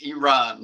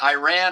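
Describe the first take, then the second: First: The word starts with 'ee' then 'Ron'. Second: The first vowel is not an 'ee' sound. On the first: The speaker calls it right. "it's Iran. So Iran, uh, E and a guy named Ron" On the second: The speaker calls it wrong. "it's not Iran"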